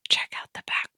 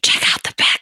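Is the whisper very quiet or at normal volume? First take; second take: very quiet; normal volume. First: It is whispered very quietly. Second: It is whispered at normal speaking volume. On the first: "I whisper like super quietly" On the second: "Should I whisper regular volume because it's a podcast?"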